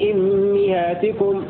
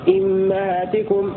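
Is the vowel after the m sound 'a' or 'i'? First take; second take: i; a. First: Both the first vowel and the m take i. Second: The first vowel is i, the m takes a. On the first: "حمزة يقرأ بكسر الهمزة وبكسر الميم معا هكذا" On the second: "الكساء يكسر الهمزة فقط ويفتح الميم"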